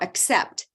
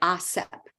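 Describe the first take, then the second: First: The final t sound is clearly pronounced. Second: The final t sound is barely heard. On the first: The speaker calls it right. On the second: The speaker calls it wrong.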